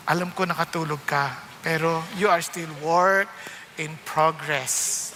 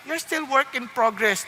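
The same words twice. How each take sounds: First: Slow teasing. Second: Said in the usual way. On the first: Shown as a demonstration. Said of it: "Pakisabi sa tabi mo".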